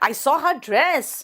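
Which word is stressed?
dress. The stress is on the word dress.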